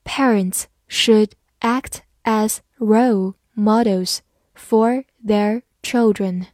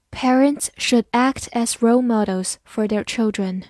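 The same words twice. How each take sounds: First: Slow, one word at a time; slow reading. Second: Said in the usual way. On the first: Shown as a demonstration. Teacher reads along with learners, slow reading. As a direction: space out every word for learners. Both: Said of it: "好，慢慢来读".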